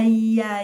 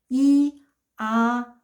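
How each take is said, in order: First: The two vowels are said quickly, merged together. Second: The two vowels are said slowly and separately.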